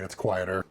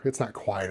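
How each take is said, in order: First: "quieter" leaned on as the correction, low and soft; correcting himself with a mild push on "quieter"; stress on quieter. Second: Said in the usual way. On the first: Shown as a demonstration. Musing about his fan, stressing "quieter".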